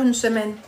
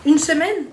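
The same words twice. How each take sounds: First: Said in the usual way. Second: Higher, incredulous echo question; taken aback, questioning. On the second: Real, not acted. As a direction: repeat it back in disbelief, pitch lifting. Echoes the comment in disbelief.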